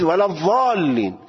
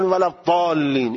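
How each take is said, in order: First: ضالین given as the proper reading against the other; ضالین as one side insists it be read; stressed correction of ḍād. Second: ضالین said with a d-like ḍād; ضالین in the dal reading; ḍād as dāl. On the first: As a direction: draw out the long vowel of ضالین with its ḍād. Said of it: "این واد نیست". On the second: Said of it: "این داله". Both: Shown as a demonstration.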